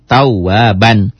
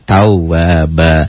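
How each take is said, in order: First: The word ends with an n sound. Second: The word ends with an open vowel. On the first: The reading continues without stopping. "Ba patah tain ban" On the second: The reading stops at this word. "Karena dihentikan jadi tawa ba"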